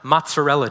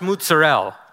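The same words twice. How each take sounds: First: It is said in the standard English way. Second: It is said in a New York Italian-American way. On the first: The speaker calls it right. "instead of mozzarella cheese" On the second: The speaker calls it wrong. "I needed to ask for fresh mozzarella instead of"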